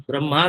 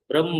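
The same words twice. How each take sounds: First: ब्रह्मा with a long a at the end; wrong pronunciation. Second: ब्रह्म short, brahm with the h before m; correct pronunciation. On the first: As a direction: say ब्रह्मा as brahmaa to show the mistake. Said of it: "ब्रह्मा नहीं है". (गलत उच्चारण, अंत में लंबा आ) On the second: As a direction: clip ब्रह्म to brahm, no long a at the end. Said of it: "उच्चारण सही करिए". (ब्रह्म का सही उच्चारण, अंत में आ नहीं) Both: Shown as a demonstration.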